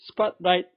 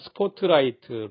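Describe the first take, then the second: First: It ends clipped, with no extra syllable. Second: It ends with a full extra 'teu' syllable. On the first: The speaker calls it right. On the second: The speaker calls it wrong.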